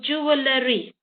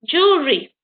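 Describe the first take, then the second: First: The vowel after the w is clearly heard. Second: The vowel after the w is silent. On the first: The speaker calls it wrong. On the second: The speaker calls it right. "We don't hear the E here"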